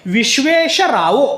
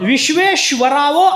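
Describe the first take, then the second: First: No v sound follows the second sh. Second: A v sound follows the second sh. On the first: The speaker calls it right. "असा शब्द आहे" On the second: The speaker calls it wrong. "असा कुठंच पाठ नाही"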